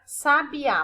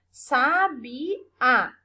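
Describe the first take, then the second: First: Said in the usual way. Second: "Sabiá" split slowly into sa, bi, á; syllable by syllable. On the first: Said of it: "a prof colocou separado". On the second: Shown as a demonstration. Teacher showing the tonic syllable, "Sabiá" said in separate syllables. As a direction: break "Sabiá" into three syllables, sounding out the final á firmly. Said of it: "O A eu pronuncio com mais for".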